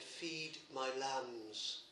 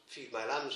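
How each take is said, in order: First: Slow tender command. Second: Said in the usual way. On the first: Acted. Christ's words to Peter, slowed.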